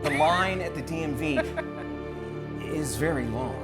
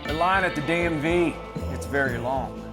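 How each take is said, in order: First: It is read in a dramatic style. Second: It is read in a Western cowboy style.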